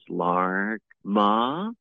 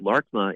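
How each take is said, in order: First: The pitch rises at the end of the word. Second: The pitch stays flat through the word. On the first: This is how the speakers of that language say it. "the way they pronounce it is Larkma ... So they have the tones go up at the end" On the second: This is the everyday American English way of saying it. "if we say Larkma in American English, it's just kind of flat"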